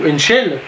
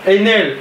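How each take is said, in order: First: The name has a 'sh' sound inside. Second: The name has no 'sh' sound inside. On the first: The speaker calls it wrong. "et pas Enshell parce qu'il n'y a pas de C devant le H" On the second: The speaker calls it right. "moi je l'ai appelé Enel parce que je trouve que ça s'appelle Enel"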